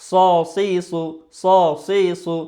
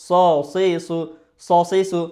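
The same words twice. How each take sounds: The two takes are said the same way.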